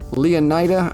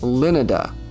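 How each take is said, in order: First: The name does not sound like Florida. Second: The name sounds like Florida. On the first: This is the official pronunciation. The speaker calls it wrong. "I think is how they pronounce it" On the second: This is the pronunciation the speaker prefers. The speaker calls it right. "it should be pronounced Lenida, like Florida"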